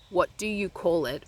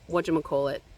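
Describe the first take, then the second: First: Each word is said separately and fully. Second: The words run together into one linked word. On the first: "would be the right complete sentence" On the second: "is linking"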